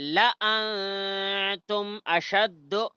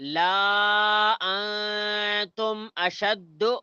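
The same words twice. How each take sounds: First: The vowel in la is kept short. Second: The vowel in la is drawn out long. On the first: The speaker calls it right. "ऐसा पढ़ना सही है" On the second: The speaker calls it wrong. "ऐसा पढ़ना गलत है"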